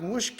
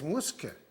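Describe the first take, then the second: First: The middle consonant is a 'sh' sound. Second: The middle consonant is an 's' sound. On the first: The speaker calls it wrong. "It's not Mushke" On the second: The speaker calls it right. "it's Muske"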